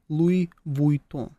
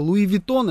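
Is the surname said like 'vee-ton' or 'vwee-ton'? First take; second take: vwee-ton; vee-ton. First: The surname starts with a 'vwee' glide sound. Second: The surname starts with a plain 'vee' sound. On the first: The speaker is showing off and acting sophisticated. "как принято говорить еще, когда ты выпендриваешься?" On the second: The speaker is an ordinary person who knows no better. "ну, плебеи, так говорят, которые не разбираются"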